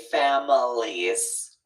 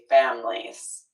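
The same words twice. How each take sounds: First: All three syllables are clearly pronounced. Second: The middle syllable is dropped, leaving two. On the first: "we don't always say families" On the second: "drop that middle syllable still when it's plural"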